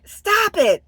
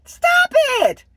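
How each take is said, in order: First: Raised, firm command; firm stop. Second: Much higher and louder, fed up; exasperated shout. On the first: Vlogger scolding viewers who overshare, raised firm voice. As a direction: tell them to cut it out. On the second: Vlogger shouting at oversharing viewers, exasperated yell. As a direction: yell it at them, totally done. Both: Real, not acted.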